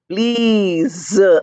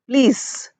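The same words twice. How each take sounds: First: The word ends with a buzzing z sound. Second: The word ends with a hissing s sound. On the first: The speaker calls it right. "Z sound" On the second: The speaker calls it wrong. "But you're not saying please"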